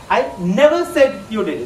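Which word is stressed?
never. The word never carries the strongest stress. The speaker denies ever having said it. "Just put an emphasis on never"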